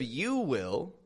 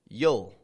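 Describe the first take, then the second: First: Both words are said fully and separately. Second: The words merge into one short contracted syllable. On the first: The speaker calls it wrong. "Instead of you will" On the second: The speaker calls it right. "drop the vowel from the word"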